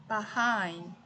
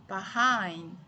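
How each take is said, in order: No difference in how they are said.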